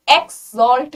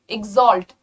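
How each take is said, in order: First: Exalt mispronounced as "EKS-solt"; slow exalt with a hard, hissed k-s; wrong x sound. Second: Exalt said as "ig-ZOLT"; correct gz sound. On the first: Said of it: "exalt नहीं बोलेंगे". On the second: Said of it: "जी और जेड का sound आएगा". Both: Shown as a demonstration.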